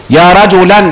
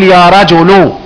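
First: "رجلًا" ending on a clear -an; tanween fatha. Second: "رجل" ending on a long -u; damma ending. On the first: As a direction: pronounce "رجلًا" as rajulan. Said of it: "تبقى نكرة غير". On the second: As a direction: pronounce "رجل" as rajulu. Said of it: "يبقى اسمها نكرة إيه؟". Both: Shown as a demonstration.

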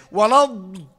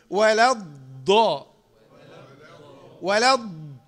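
First: Louder "ولا الض" with an exaggerated, puffed-mouth ض; imitating the overdone ض of "ولا الض"; overblown dad. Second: "ولا الض" with a pressed ض, mouth not puffed; deliberate, unexaggerated "ولا الض"; correct dad. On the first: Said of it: "بعض الاخوه يبالغ ينفخ بق". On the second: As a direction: hold the heavy ض of "ولا الض" without puffing. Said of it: "ما نفختش". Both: Shown as a demonstration.

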